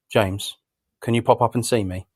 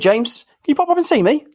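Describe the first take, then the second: First: The request sounds stern and ominous. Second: The request sounds light and friendly. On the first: The listener is in trouble. "fuck, fuck, I'm in the shit" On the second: It is a casual invitation for coffee. "oh, sweet, it's uh, it's coffee time"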